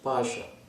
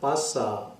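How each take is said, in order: First: The middle consonant is an 'sh' sound. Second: The middle consonant is a plain 's' sound. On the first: The speaker calls it right. "It is spoken as Pasha" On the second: The speaker calls it wrong. "This is not Pasa as the Ragi Jathas in singing Varasaki pronounce"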